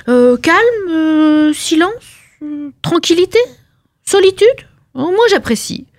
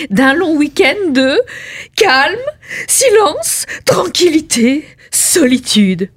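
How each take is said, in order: First: Higher, lingering over each blissful word; dreamy savouring. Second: Higher, slow, each word melting; rapturous savouring. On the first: Wife dreaming of three days alone, higher dreamy voice. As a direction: sigh out each word like a treat. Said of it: "dreamy list of pleasures". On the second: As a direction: swoon over calm and silence. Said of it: "dreamy list repeated". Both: Acted.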